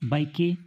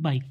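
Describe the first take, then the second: First: The final e is sounded after the k. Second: The word ends on a plain k sound. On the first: The speaker calls it wrong. "बाइक को बाइके नहीं पढ़ते" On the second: The speaker calls it right. "बाइक पढ़ते हैं"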